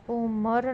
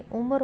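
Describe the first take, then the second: First: उम्र with a held double m; wrong pronunciation. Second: उम्र with a single m; correct pronunciation. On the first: Teacher showing a spelling error, उम्र as um-mar. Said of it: "नहीं". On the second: Teacher giving the correction, उम्र as u-mar. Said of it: "होगा". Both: Shown as a demonstration.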